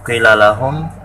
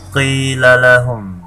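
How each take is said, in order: First: The vowel in 'qi' is short and quick. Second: The vowel in 'qi' is held long. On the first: The speaker calls it wrong. "tidak dibaca cepat qila lahum" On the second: The speaker calls it right. "dipanjangkan sebanyak sepanjang dua harokat"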